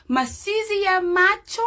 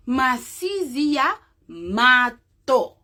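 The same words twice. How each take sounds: First: "Masizi ya macho" with a clear ch in "macho"; standard Swahili form. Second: "masizi ya mato" said slowly, t in place of ch in "mato"; slow and careful: "mato" with a plain t; Kiamu dialect form. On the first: Teacher gives the standard Swahili form first, ch in "macho". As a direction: say "macho" with ch, rising at the end. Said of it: "that's Kiamu dialect". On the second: Teacher contrasts the dialect form, slowly saying "mato" with t. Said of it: "when I say mato, that's Kiamu dialect". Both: Shown as a demonstration.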